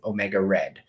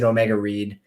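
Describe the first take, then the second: First: The last word rhymes with 'bed'. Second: The last word rhymes with 'seed'. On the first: It is a pun on having read books. "I thought it was a clever play on words" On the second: It is read as the present-tense verb. "most people see it and they pronounce it Omega Reed"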